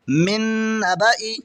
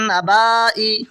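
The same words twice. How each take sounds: First: मिन नबाई with a short "ba" before a long "ee"; silent alif. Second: नबाई with a long drawn "baa" before "ee"; alif wrongly sounded. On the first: Teacher shows the correct reading, alif left silent and "ba" short. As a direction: keep "ba" brief in नबाई, alif unread. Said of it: "इस तरह सही पढ़ा जाएगा". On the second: Teacher shows students the written form, alif drawn out long. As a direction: stretch the middle of नबाई as if the alif were read. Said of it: "ये अलिफ नहीं पढ़ा जाएगा". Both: Shown as a demonstration.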